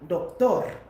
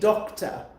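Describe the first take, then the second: First: It is said with a Spanish accent. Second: It is said with an English accent. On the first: The speaker calls it right. "you're adding the Spanish accent to it" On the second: The speaker calls it wrong.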